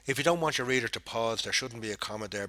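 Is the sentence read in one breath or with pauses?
one breath. It runs on with almost no pauses. The speaker calls it wrong.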